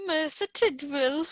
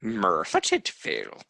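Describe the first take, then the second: First: Merthyr Tydfil copied with a rise; unsure attempt at Merthyr Tydfil; repeating pronunciation. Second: Merthyr Tydfil said as MER-thir TID-vil; teaching pronunciation. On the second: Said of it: "able to pronounce it". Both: Shown as a demonstration.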